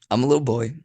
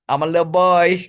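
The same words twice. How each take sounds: First: The line is said in a plain, normal voice. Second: The line is said with lively, enthusiastic energy. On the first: "just say it in your normal voice" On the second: "say it more enthusiastically?"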